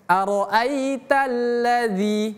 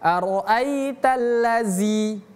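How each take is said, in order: First: The final consonant is a voiced th sound. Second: The final consonant is a buzzing z sound. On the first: The speaker calls it right. "Itu pakai zal" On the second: The speaker calls it wrong. "bukan ara'aitallazi"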